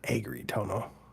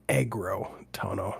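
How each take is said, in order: First: The second syllable has an 'i' vowel. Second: The second syllable has an 'o' vowel. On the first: The speaker calls it wrong. "not agri tono" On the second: The speaker calls it right. "it's aggro tono"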